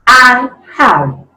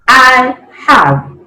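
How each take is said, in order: The two takes are said the same way.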